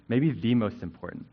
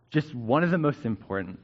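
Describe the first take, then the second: First: "the" said as a stressed "thee". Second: Said in the usual way. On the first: Real, not acted. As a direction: lean on "the", pronounced "thee", to mean the single top one. Correcting one of to the.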